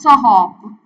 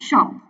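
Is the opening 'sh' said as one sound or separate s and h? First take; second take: separate; one sound. First: The s and h are sounded separately. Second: The s and h merge into one sh. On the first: The speaker calls it wrong. "अगर आप इसको बोलो कि इसमें four फोनेम्स है" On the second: The speaker calls it right. "शॉप basically three फोनेम्स है इसमें"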